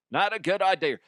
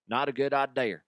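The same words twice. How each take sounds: First: Not a good idea said higher with more push; stronger warning. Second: Said in the usual way. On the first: Shown as a demonstration. Repeating his warning to listeners, with more force. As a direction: press the warning home. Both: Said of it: "repeated with emphasis".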